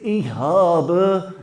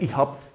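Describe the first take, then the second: First: It is said the Slovakian way, with full ending. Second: It is said the Austrian way, ending clipped.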